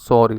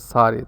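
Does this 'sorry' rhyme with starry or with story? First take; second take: story; starry. First: The first vowel is a rounded 'or' sound. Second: The first vowel is an open 'ar' sound. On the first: This is how Canadian English says it. "But in Canadian English, they say it sorry like story" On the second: Some other speakers say it this way. "they say sorry, so it rhymes with starry"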